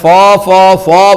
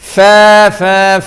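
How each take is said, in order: First: The 'fa' is heavy, with a rounded 'o' vowel. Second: The 'fa' is light, with a clear 'a' vowel. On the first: The speaker calls it wrong. "ഫോ ഫോ ഫോ പറയാൻ പറ്റില്ല" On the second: The speaker calls it right. "ഫ ഫ ഫ പറയണം"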